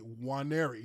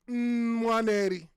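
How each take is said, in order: First: The name starts without an N sound. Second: The name starts with an N sound. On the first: This is the English way of saying the name. "You don't say the N in my last name at the beginning" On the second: This is the Igbo way of saying the name. "in Igbo, which is Nigerian dialect, you do pronounce the N"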